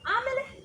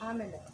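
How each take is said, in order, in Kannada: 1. ಇದನ್ನು ಹೊಟ್ಟೆಯಿಂದ ಪೂರ್ಣ ಧ್ವನಿಯಲ್ಲಿ ಹೇಳ್ತಾರೆ. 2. ಇದನ್ನು ದುರ್ಬಲವಾಗಿ, ಉಸಿರಿನಲ್ಲಿ ಹೇಳ್ತಾರೆ. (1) "ಹೊಟ್ಟೆಗೆ ಆಮೇಲೆ" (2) "ಅಲ್ಲ"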